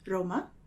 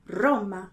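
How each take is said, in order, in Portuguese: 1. O R é vibrado com poucas vibrações. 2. O R é vibrado com mais vibrações. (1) "com uma vibração menor" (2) "Um mais e outro menos"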